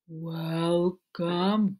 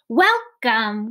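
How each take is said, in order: First: It is said in a low voice. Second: It is said very loudly.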